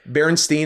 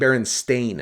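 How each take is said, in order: First: The name ends with a 'steen' sound. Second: The name ends with a 'stain' sound. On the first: The speaker calls it wrong. "everyone remembers it wrong" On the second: The speaker calls it right. "And it is Berenstain"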